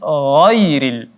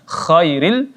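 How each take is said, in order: First: It begins with a voiced gargled gh sound. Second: It begins with a voiceless rasping kh sound. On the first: The speaker calls it right. "tapi ghairil" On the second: The speaker calls it wrong. "membunyikan huruf gha seperti huruf kha ... salah besar"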